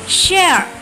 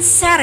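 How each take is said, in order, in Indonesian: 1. Diucapkan dengan lancar seperti penutur asli. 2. Diucapkan dengan aksen khas Indonesia.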